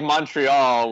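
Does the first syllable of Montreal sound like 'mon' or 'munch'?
mon. The first syllable is said as 'mon'.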